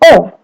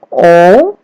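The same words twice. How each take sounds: First: The pitch falls sharply from high to low. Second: The pitch rises from mid to high. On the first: "O nada keempat turun atau sedikit ditekan" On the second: "O nada kedua, naik"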